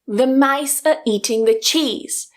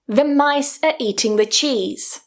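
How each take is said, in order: First: Only the key words are stressed; the rest is weakened. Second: Only the key words are stressed; the rest is weakened.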